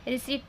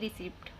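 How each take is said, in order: First: No p sound is pronounced before the t. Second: A p sound is pronounced before the t. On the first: The speaker calls it right. "रिसिप्ट नहीं रिसीट पढ़ा जाता है" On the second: The speaker calls it wrong. "पी को भी आप पढ़ते हैं और टी को भी पढ़ते हैं"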